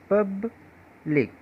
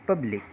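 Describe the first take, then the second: First: "public" broken as पब, pause, लिक; syllable split. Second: Said in the usual way. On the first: Shown as a demonstration. Teacher showing more than one syllable, "public" split by a pause. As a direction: sound out "public" in two separate syllables. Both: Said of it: "एक से अधिक syllable है".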